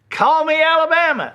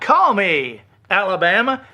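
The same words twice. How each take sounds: First: It runs straight on without a pause. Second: There is a pause before Alabama.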